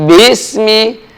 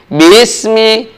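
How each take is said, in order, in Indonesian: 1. Vokal pertama dipanjangkan. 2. Vokal pertama dipanjangkan.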